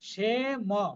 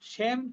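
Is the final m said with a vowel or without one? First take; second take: with vowel; without vowel. First: The m is said fully with a vowel. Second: The m closes the syllable with no vowel. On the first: The speaker calls it right. "মটা পূর্ণ" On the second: The speaker calls it wrong. "সেম কিন্তু নয়"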